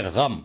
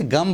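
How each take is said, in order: First: 'गम' with a throaty gh; correct Urdu pronunciation. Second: 'गम' with a plain hard g; common mispronunciation. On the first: Teacher shows what to say instead, correctly. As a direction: say 'गम' with the Urdu ghain sound. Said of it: "इसको बोले गम". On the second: Teacher shows how people usually say it, mispronounced. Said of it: "आमतौर से गम बोला जाता है". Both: Shown as a demonstration.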